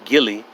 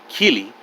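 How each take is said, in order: First: The word begins with a hard G sound. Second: The word begins with a K sound. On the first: The speaker calls it wrong. "whether we pronounce it unwartly Gilly" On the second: The speaker calls it right. "used correctly to pronounce it Keely"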